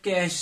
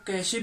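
First: The word is one syllable ending in sh. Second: The word ends with an extra vowel syllable. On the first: The speaker calls it right. "Actually इसको pronounce किया जाता है कैश से" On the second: The speaker calls it wrong. "कुछ लोग इसको कैशे भी कहते हैं"

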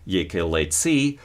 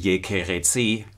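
First: The middle consonant is an l sound. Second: The middle consonant is a fricative sound. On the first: This is the classical pronunciation. "Classical pronunciation of the word for church" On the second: This is the traditional church pronunciation. "church pronunciation would be yekeretsi"

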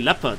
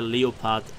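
First: The word is pronounced with English sounds. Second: The word is pronounced with German sounds. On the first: "the English pronunciation of Leopard would be Leopard" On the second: "I always pronounce it the German way"

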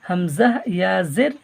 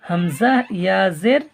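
The two takes are said the same way.

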